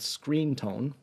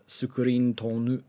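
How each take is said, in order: First: It is said with English pronunciation. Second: It is said with Japanese loanword pronunciation. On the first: "now I'm saying that with an English accent" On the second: "in Japanese, it'd be something like sukurin tonu"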